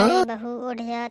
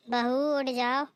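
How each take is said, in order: First: Louder call with अरे hit hard; impatient shout. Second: Slow drawn call to wake the bride. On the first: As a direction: shout अरे बहू उठ जा to wake her. Louder call to wake her. (झुंझलाकर ज़ोर से पुकार) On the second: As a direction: stretch बहू out in a rising call. (बहू को ज़ोर से पुकारना) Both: Acted.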